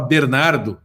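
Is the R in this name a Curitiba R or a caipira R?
Curitiba R. The R is said the typical Curitiba way.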